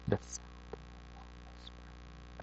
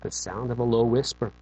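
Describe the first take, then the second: First: Hushed, slow, breathy whisper. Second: Said in the usual way. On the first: Shown as a demonstration. Preacher acting out God's low whisper, whispered. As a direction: breathe the words out with no voice, slowly.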